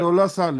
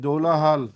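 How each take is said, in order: First: The second word begins with an s sound. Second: The second word begins with an h sound. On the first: The speaker calls it wrong. "Pronounce properly" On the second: The speaker calls it right. "it's Dola Hal"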